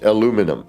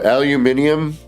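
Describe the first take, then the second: First: No extra vowel sound comes before the ending. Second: An extra vowel sound comes before the ending. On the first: The speaker calls it right. "It's aluminum" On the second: The speaker calls it wrong. "please tell me where that indium is"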